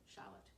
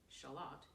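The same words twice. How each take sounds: First: The stress is on the first syllable. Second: The stress is on the second syllable. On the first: This is the American way of saying it. "Americans place the emphasis on the first syllable" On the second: This is the British way of saying it. "the British pronounce them like the lady of"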